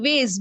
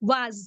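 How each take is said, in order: First: The word ends with an s sound. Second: The word ends with a z sound. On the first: "American English में was. Sorry, ways, ways, s के साथ, s sound" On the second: "और यहाँ was, z, z sound"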